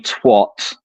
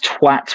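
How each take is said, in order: First: The vowel sounds like an 'o'. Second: The vowel sounds like an 'a'. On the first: This is how Americans say it. The speaker calls it wrong. "when Americans say twat" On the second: This is how the word should be said. The speaker calls it right. "It's twat with an A"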